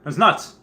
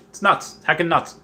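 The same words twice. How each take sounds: First: Said in the usual way. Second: Higher, emphatic "nuts"; excited. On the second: Real, not acted. Telling viewers about the set glut, excited. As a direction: stretch "nuts" up in disbelief.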